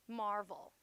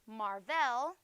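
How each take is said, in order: First: The stress is on the first syllable. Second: The stress is on the second syllable. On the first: The speaker calls it right. "Mar is accented" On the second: The speaker calls it wrong. "I wouldn't say marvel. Vel is not accented"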